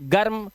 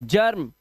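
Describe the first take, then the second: First: The letter g is said as a hard g. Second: The letter g is said as a j. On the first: The speaker calls it wrong. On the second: The speaker calls it right.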